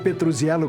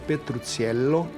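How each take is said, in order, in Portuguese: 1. O nome é pronunciado com sons do português brasileiro. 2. O nome é pronunciado com sons italianos. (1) "como dizem os brasileiros" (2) "pronunciado em italiano"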